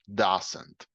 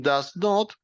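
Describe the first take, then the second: First: "doesn't" demonstrated alone, ending in "nt" without the O; contracted pronunciation. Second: Said in the usual way. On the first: Shown as a demonstration. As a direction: model "doesn't" with "not" reduced to "nt". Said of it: "puede ser pronunciado doesn't". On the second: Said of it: "Lo mismo con does not".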